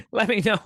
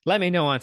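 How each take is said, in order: First: Laughing through the repeat. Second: Said in the usual way. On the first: Real, not acted. Streamer repeating her request to chat, laughing. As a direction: let the laugh carry the words.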